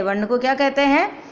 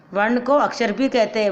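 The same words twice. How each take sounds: First: क्या कहते हैं asked with a rising question tune at हैं; teacher tosses the question to the class, हैं lifted; quiz question tune. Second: Said in the usual way. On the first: Shown as a demonstration. Teacher quizzing pupils on वर्ण, asks with rising हैं.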